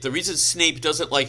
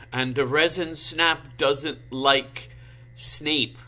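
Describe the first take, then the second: First: Said in the usual way. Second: "resin snap" sounded out slowly as spelt; literal misreading. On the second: Shown as a demonstration. Reader puzzling over misspelled Snape, "resin snap" pronounced literally. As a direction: read "resin snap" literally, word by halting word. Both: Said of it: "I bet that says Snape".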